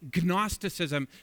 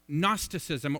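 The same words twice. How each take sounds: First: The word begins with a sounded G. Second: The word begins with a silent G.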